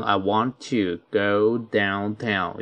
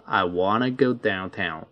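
First: I want to go downtown with want to spoken in full. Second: I wanna go downtown with want to reduced to wanna. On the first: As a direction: say want to in full, not wanna. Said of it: "你可以读成". (完整读出want to) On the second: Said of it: "也可以读成". (连读成wanna) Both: Shown as a demonstration.

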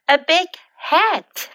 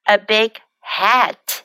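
First: Said in the usual way. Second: Slow careful demo. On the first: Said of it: "teacher repeats phrase normally". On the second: Shown as a demonstration. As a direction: stretch each word for the class. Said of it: "teacher repeats phrase slowly".

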